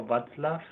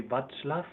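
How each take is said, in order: First: Václav with a "ts" in the middle, "VATS-laf"; ts pronunciation. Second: Václav with a "ch" in the middle, "VATCH-laf"; ch pronunciation. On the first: Offering a viewer another option, Václav said "Vats-laf". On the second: Unsure of a viewer's name, trying Václav as "Vatch-laf". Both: Shown as a demonstration. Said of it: "I don't know how to pronounce".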